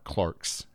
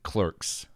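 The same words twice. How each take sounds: First: It is said with a British pronunciation. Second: It is said with an American pronunciation.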